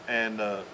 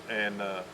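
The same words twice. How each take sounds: Both takes have the same delivery.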